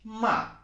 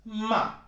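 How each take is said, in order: No difference in how they are said.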